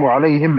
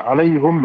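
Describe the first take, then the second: First: وعليهم said as wa'alayhim, the h with i and the m unvoweled; hi with a still m. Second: عليهم said as 'alayhum, the h with u and the m unvoweled; hu with a still m. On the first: Reciter demonstrating the second reading, wa'alayhim with a still m. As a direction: read وعليهم as wa'alayhim, closing on a silent m. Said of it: "بكسر الهاء وإسكان الميم". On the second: Reciter demonstrating the first reading, 'alayhum with a still m. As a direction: read عليهم as 'alayhum, closing on a silent m. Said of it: "بضم الهاء وإسكان الميم". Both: Shown as a demonstration.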